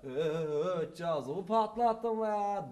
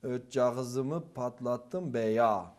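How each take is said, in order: First: Slow, drawn-out Thracian accent line. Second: Put-on very slow Ötcağızımı in a botched Thracian accent; mixed eastern-Thracian accent. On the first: Shown as a demonstration. Hallaç's proper line, demoed slowly in Thracian accent. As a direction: stretch it out in a mild Thracian accent. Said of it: "normalde öyle söylemesi gerekiyor". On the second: First-time actor reads Hallaç's line in mixed accent. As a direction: eastern accent leaking into a Thracian one, drawn out. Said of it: "diye okuyorum".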